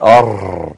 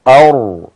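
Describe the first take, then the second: First: The R is trilled with repeated tongue taps. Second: The R is held steady without trilling. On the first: The speaker calls it wrong. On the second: The speaker calls it right.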